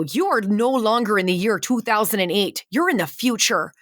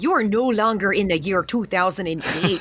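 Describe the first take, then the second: First: Light Midwestern accent on a mock announcement; mild Midwest accent, ride-attendant style. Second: Hammed-up thick Midwestern accent, rising at the end; exaggerated Midwest accent, mock announcement. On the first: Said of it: "I got in trouble for that accent". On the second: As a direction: overdo the Midwest accent on purpose. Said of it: "I'm exaggerating it now".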